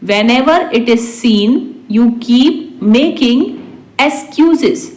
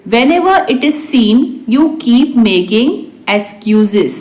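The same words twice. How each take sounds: First: Measured, phrase by phrase; slow repeat. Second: Said in the usual way. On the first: Shown as a demonstration. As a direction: pause before the last word. Teacher repeats translation word by word. (धीरे-धीरे, टुकड़ों में)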